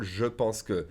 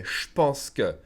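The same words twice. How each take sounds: First: "je pense que" with "je" fully sounded; textbook pronunciation. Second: "je pense que" said as "shpense que"; contracted. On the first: Teacher shows what not to say, "je pense que" uncontracted. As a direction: keep the E in "je", separate from "pense". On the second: Teacher shows what the French say, "je pense que" as "shpense que". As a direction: blend "je" into a "sh" before "pense". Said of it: "The French will almost always say". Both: Shown as a demonstration.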